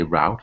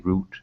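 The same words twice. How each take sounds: First: It is said the American way. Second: It is said the English way.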